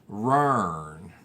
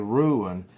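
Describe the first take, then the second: First: It is said the local Appalachian way. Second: It is said the Californian way. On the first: This is how it is said locally. "but I say lately rern" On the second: This is how it is said out in California. "when I'm out in California, I say ruin"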